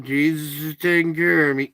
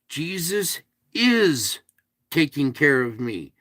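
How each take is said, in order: First: It is said in an offhand, dismissive way. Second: It is said earnestly, with heartfelt conviction. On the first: The speaker does not really believe it. The speaker calls it wrong. "You can't just say, yeah" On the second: The speaker truly believes it. The speaker calls it right. "You have to mean it"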